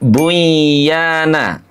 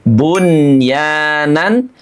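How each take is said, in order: First: The n sound merges into the y. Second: The n sound is pronounced clearly before y. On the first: The speaker calls it wrong. "tidak buyana" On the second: The speaker calls it right. "tapi bunyanan"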